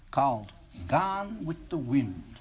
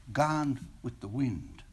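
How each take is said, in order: First: Said in the usual way. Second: Light, breezy and slow; breezily. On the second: Acted. Senior girl to the boy, breezy and light. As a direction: toss off Gone with the Wind lightly and softly. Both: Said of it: "she said breezily".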